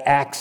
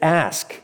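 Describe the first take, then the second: First: The word ends with a ks sound. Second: The word ends with an sk sound. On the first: "people will pronounce ask with axe. I ax them, A-X" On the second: "But it's ask, A-S-K"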